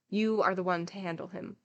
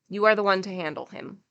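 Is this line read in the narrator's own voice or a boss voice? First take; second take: own voice; boss voice. First: It is read in the narrator's own voice. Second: It is read in a put-on boss voice.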